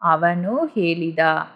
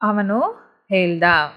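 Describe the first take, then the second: First: The vowel after the l is said fully. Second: The vowel after the l is dropped. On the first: This is the fuller standard form. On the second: This is the form used in casual speech.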